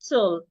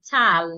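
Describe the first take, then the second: First: The syllable has a weak, reduced vowel. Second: The syllable has a full, clear A vowel. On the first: The speaker calls it right. "The A that would not be heard" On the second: The speaker calls it wrong. "It won't be t, al, tal, no"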